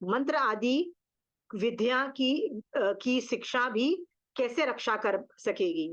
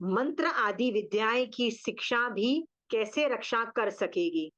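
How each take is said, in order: First: It is asked in a mocking, sarcastic tone. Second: It is asked as a plain, sincere question.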